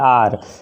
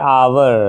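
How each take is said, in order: First: The word is said as one syllable. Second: The word is said with two syllables. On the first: "शुद्ध उच्चारण तो होता है आर" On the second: "इसका sound क्या आ रहा है? आवर"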